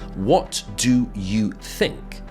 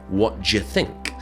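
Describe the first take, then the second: First: Each word is said fully and separately. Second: The words are reduced and blended together. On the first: "what do you think becomes what d'ye think" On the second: "what d'ye think. Much harder to understand"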